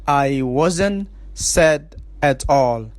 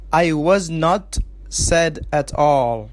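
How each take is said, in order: First: Was and not are joined as wasn't. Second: Was and not are said as two full words.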